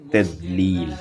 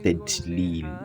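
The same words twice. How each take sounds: First: The middle consonant is a heavy emphatic d. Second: The middle consonant is a plain t sound. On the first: The speaker calls it right. "the sound in this verse ... is dod" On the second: The speaker calls it wrong. "not tedlil. It does it shouldn't sound as t"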